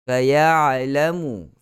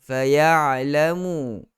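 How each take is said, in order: Both takes have the same delivery.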